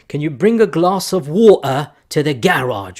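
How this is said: It is said in a fake British accent.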